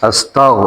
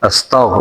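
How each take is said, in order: The two takes are said the same way.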